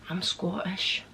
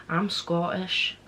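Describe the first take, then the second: No difference in how they are said.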